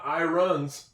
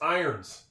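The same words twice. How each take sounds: First: An O vowel is pronounced in the word. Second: No O vowel is heard in the word. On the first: The speaker calls it wrong. "It's not irons" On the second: The speaker calls it right. "That's a silent O"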